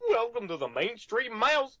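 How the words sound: It is said in a Goofy voice.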